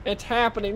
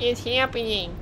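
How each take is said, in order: First: Said in the usual way. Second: Higher, squeaky imitation of the guy; mock the guy's squeaky voice. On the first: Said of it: "this guy's squeaky voice". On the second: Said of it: "Did you hear this guy's squeaky voice".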